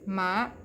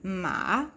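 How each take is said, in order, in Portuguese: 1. A sílaba é leve e neutra, sem força. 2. A sílaba tem o tom descendente, o terceiro tom. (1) "ela é uma partícula de tom neutro, então você não vai forçar a sua voz" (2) "o nosso queridíssimo terceiro tom do mandarim"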